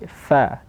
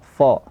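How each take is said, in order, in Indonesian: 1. Bunyi fa terdengar tipis dan ringan. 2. Bunyi fa terdengar tebal dan berat. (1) "tapi seperti fa tipis" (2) "juga ditebalkan fa"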